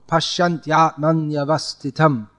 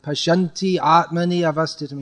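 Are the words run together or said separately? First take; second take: run together; separately. First: The words are run together without stopping. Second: The words are separated with extra vowel syllables. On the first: The verse keeps its proper meter. The speaker calls it right. "it's supposed to be said as one flow" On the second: The verse meter is thrown off balance. The speaker calls it wrong. "you add two extra matras"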